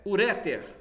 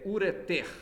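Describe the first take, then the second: First: The stress is on the next-to-last syllable. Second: The stress is on the final syllable. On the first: The speaker calls it wrong. "Não é uréter" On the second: The speaker calls it right. "São oxítonos"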